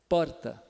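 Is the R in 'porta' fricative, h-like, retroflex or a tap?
tap. The R is a single quick tongue tap. "o paulistano ... vibrante simples ... É uma batidinha breve"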